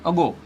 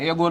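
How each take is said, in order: First: The first vowel sounds like 'uh'. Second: The first vowel sounds like 'ay'. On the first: The speaker calls it right. "શું વંચાય? અગો" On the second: The speaker calls it wrong. "એગો ના વંચાય"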